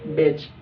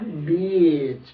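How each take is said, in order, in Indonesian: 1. Vokalnya dibaca pendek. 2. Vokalnya dibaca panjang. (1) "kalau kita baca pendek" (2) "Bacanya beach, panjang"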